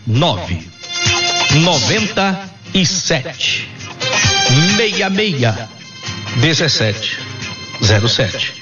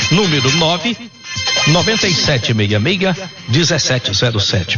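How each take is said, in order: First: The number is said slowly. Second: The number is said at normal speed.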